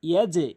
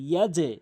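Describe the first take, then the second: No difference in how they are said.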